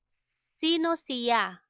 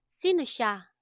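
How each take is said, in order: First: "siya" in two syllables, si-ya; slow "siya" with the i sounded before ya; full careful pronunciation. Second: "siya" squeezed into one syllable, sha; quick "siya" said as sha; contracted pronunciation. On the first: Teacher offers learners the full form, "siya" said si-ya. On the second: Teacher offers the spoken variant, "siya" said as sha. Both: Shown as a demonstration.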